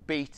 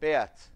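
First: The name is said like the English word. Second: The name is said with its native pronunciation. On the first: The speaker calls it wrong. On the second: The speaker calls it right.

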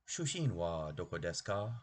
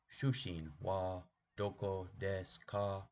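First: It is said quickly, run together. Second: It is said at a normal, unhurried speed.

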